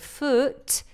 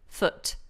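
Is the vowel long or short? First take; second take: long; short. First: The vowel is drawn out long. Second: The vowel is kept short. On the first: The speaker calls it wrong. "it looks like a long vowel" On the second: The speaker calls it right. "this should be a short vowel"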